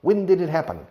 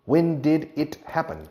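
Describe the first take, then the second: First: "When did it happen?" with the word did punched louder; stress on did. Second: "When did it happen?" with the word when punched; stress on when. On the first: Teacher drilling the auxiliary, stress on did. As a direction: hit "did" hard, then fall. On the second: Teacher drilling a question, stress on when. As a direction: lean on "When" and let it fall. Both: Shown as a demonstration. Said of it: "El it ya es el incendio en cuestión".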